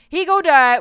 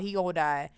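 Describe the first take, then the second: First: "He gonna die" shouted far higher and much louder; panicked yell. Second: Said in the usual way. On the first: Real, not acted. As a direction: blurt it out in sudden alarm.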